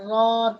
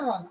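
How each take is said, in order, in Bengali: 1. স্বরটি 'n'-এর আগে টেনে দীর্ঘ করা হয়। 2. স্বরটি হ্রস্ব, সরাসরি 'n'-এ চলে যায়। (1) "র আলিফ দিয়ে জবর রন বা রন এরকম বলে। তো এটা বলা যাবে না।" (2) "আলিফটা এখানে টোটালি আউট।"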